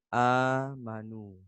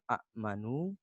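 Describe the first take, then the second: First: The opening vowels merge into one long vowel. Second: The opening vowels are said as separate sounds. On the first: The speaker calls it right. "tetapi amanu" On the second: The speaker calls it wrong. "bukan a'manu"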